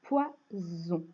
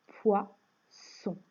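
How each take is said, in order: First: "Poison" slowly split, poi-zzon, with a voiced buzz; Z sound in Poison. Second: "poisson" split in two, poi-sson, with a voiceless hiss; S sound in poisson. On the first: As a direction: stretch the buzzing Z in "Poison". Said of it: "Je chante bien le Z". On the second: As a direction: make the middle of "poisson" a clear hissed S. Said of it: "Pour chanter le S". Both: Shown as a demonstration.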